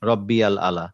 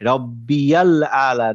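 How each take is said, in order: First: Rabbi and al are separate, with no 'y' sound. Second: Rabbi links into al through a 'y' sound. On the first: The speaker calls it wrong. "আপনি তাই বললেন তাই না?" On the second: The speaker calls it right. "না বলি, তাহলে এটা ভুল হবে"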